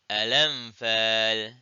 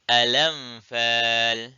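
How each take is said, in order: Both takes have the same delivery.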